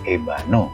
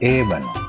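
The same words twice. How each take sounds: First: The stress is on the second syllable. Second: The stress is on the first syllable. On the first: The speaker calls it wrong. "salah kalau kamu mengucapkan ébano, karena tekanannya bukan di huruf A" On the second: The speaker calls it right. "Yang harus kamu ucapkan adalah ébano"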